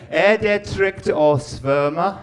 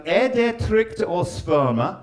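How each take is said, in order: First: Slow, louder "Er det trygt å svømme?" with each syllable spelled out; careful Norwegian again. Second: Slow, over-careful "Er det trygt å svømme?"; careful Norwegian attempt. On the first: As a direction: repeat the Norwegian phrase more emphatically. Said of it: "okay, I'll do it again". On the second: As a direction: sound out each Norwegian word deliberately. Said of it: "Two phrases I learned". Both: Shown as a demonstration.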